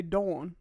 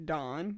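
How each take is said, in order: First: "Dawn" with a rounded "aw" vowel; like woman's name. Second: "Dawn" said like the man's name Don; low, questioning "Dawn" with an open "ah" vowel; "Dawn" rhymed with "con". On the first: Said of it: "say it like the woman's name". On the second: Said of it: "say it just like the man's name". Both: Retold or imitated.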